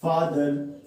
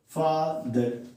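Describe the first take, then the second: First: फादर in two lightly separated beats, run close together; फादर measured out, both syllables joined; two-syllable demonstration. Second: फादर broken in two, softer, with a gap before the second syllable; फादर sounded out as two separate pieces; split into syllables. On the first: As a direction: say फादर slowly with barely a break between syllables. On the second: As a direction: pause between the two beats of फादर. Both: Shown as a demonstration. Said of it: "दो बार में बोल पा रहे हैं".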